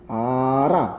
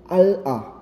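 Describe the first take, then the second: First: A quick R sound linking both syllables. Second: An L sound with a break between syllables. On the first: The speaker calls it right. "super bilis" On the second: The speaker calls it wrong. "nakakapagod sabihin"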